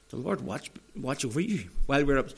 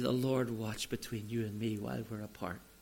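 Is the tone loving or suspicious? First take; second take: suspicious; loving. First: It is said in a distrustful, suspicious tone. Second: It is said in a loving, tender tone.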